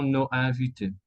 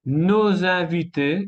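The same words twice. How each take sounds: First: Nos invités with silent s; nos, then invités, unlinked; missing liaison. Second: Nos invités linked with a z; liaison. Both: Shown as a demonstration. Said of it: "y no nos invités".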